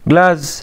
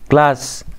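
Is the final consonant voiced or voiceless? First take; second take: voiced; voiceless. First: The final consonant is voiced. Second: The final consonant is voiceless. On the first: The speaker calls it wrong. "لا غلط" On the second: The speaker calls it right. "جلاس اللي هي العين"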